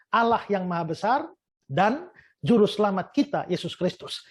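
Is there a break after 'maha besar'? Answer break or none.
break. A break separates 'maha besar' from 'dan juru selamat'. Two different persons are being described. The speaker calls it wrong. "Pertama, seperti ini"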